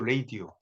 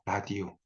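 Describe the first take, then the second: First: The word begins with 'ray' and ends in 'dee-o'. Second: The word begins with 'ra' and ends in 'dee-o'. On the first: This is the original English form. "원래는 이게 레이디오죠" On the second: This is the accepted Korean form. "그러니까 그냥 라디오"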